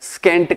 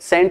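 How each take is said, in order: First: It is said with a k sound. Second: It is said without a k sound. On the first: The speaker calls it right. "स्केंट कहेंगे" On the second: The speaker calls it wrong. "सेंट नहीं"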